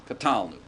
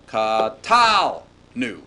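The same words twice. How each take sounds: First: Said in the usual way. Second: "Katal nu" very slow, with a long, loud "tal"; accent on tal. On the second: Shown as a demonstration. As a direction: draw out and punch "tal", then drop onto a separate "nu". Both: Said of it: "with the accent away from the verbal suffix".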